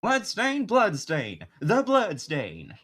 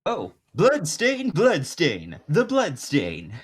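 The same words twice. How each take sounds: First: High, loud, slow Southern drawl; Southern accent. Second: High, loud, slow jazzy showman; jazz musician voice. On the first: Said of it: "more of a country accent". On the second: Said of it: "No, it was more of a country accent". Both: Acted.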